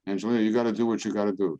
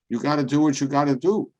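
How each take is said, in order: First: Said in the usual way. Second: Friend's advice. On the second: Retold or imitated. Friend Joey quoted.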